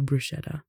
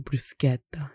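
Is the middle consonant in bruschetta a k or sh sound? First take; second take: sh; k. First: The middle consonant is a sh sound. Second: The middle consonant is a k sound. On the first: The speaker calls it wrong. "instead of bruschetta" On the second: The speaker calls it right. "The CHE would be a K sound instead"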